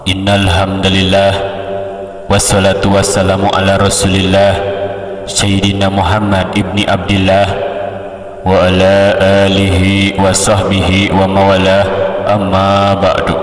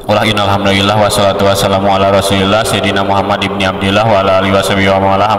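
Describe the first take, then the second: First: Slow, measured opening with pauses; stately sermon opening, steady and spaced; broken into phrases. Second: Rattled-off sermon opening; rushed, no spaces. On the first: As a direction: chop it phrase by phrase on an even tone. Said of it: "dipotong-potong". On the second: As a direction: race through it in one unbroken run. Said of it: "ulah ayeuna beberebetan teuing". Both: Shown as a demonstration.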